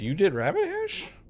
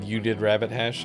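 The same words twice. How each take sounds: First: It ends with a rising question tune. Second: It ends with a falling statement tune.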